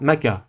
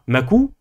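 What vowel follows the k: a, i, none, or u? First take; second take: a; u. First: The k is followed by an a vowel. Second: The k is followed by an u vowel. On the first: "vous ne dites pas maka" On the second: "Vous ne dites pas makou"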